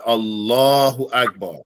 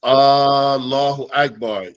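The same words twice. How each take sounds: First: Allahu Akbar with a short opening A; teacher contrasting the correct form; correct short hamza. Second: Slow Allahu Akbar, the opening A stretched; teacher showing how the meaning changes; wrong long hamza. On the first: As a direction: keep the first A of Allahu brief. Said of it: "You hear the difference?". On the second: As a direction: draw out the first A of Allahu so it sounds like a question. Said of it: "it's asking a question like". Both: Shown as a demonstration.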